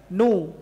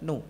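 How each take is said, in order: First: The syllable is said loudly and fully. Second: The syllable is said softly and quickly. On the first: The speaker calls it wrong. "tidak nu lantang seperti itu, enggak" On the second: The speaker calls it right. "Merendahkan suaranya"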